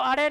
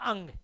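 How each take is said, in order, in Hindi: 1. इस अक्षर का उच्चारण फ़्लैप वाली र जैसी ध्वनि से होता है। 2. इस अक्षर का उच्चारण नासिक्य ng ध्वनि से होता है। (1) "इसको अड़े नहीं बोलना" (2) "इसका उच्चारण होगा अंग"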